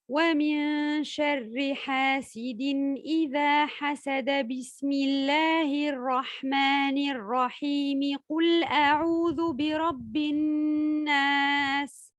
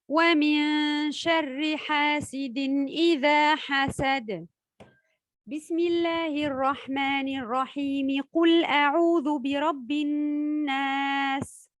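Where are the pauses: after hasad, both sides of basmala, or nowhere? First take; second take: nowhere; after hasad. First: It runs on without any pause at all. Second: It pauses only before the basmala, then runs on. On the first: "Fin de sourate, ensuite basmala, ensuite le début d'une sourate" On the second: "lire la fin de la sourate, puis marquer un temps d'arrêt, enchaîner ensuite Al-Basmala et le début"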